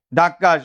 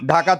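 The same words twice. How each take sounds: First: ধাক্কা with the k doubled and held, "dhak-ka"; forceful doubled consonant. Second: Said in the usual way. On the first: Shown as a demonstration. Teacher answering own question, ধাক্কা said forcefully with doubled k. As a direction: press on the middle k of ধাক্কা before "ka". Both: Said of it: "জোর দিয়ে উচ্চারণ করার জন্য".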